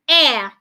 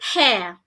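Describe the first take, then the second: First: It starts without an h sound. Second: It starts with an h sound. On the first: The speaker calls it right. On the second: The speaker calls it wrong.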